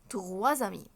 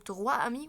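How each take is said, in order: First: A z sound links the two words. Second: The words are said with no z sound between them. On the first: The speaker calls it right. "هتتنطق زد، فاقولها تغوا زمي" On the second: The speaker calls it wrong. "فهقول تغوا امي، ولا الاس برضه هتتنطق ايه؟"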